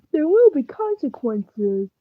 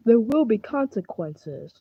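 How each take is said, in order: First: Ominous warning. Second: Softer, low ominous repeat. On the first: To a fellow player, a slow ominous warning. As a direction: drag it out like a dark threat. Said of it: "Why are you talking like that?". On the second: Repeating the threat to the other player, quietly ominous. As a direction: say it again, dark and quiet. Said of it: "you had to say it, like, three times". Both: Acted.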